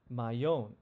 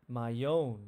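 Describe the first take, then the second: Both takes have the same delivery.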